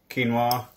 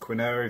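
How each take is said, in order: First: The word is said in its usual accepted pronunciation. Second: The word is said as it looks when spelled. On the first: The speaker calls it right. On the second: The speaker calls it wrong.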